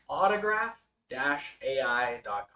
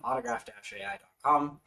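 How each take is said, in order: First: It is said slowly and deliberately. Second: It is said at a quick, normal pace.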